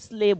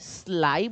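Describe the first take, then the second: First: The vowel sounds like 'ay'. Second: The vowel sounds like 'eye'. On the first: The speaker calls it right. "તો આને S L એ Y સ્લે બોલવું જોઈએ" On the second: The speaker calls it wrong. "હવે આને સ્લાય બોલવું કે સ્લે બોલવું?"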